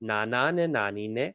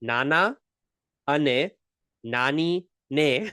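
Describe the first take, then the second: First: The phrase is said at normal speed. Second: The phrase is said more slowly.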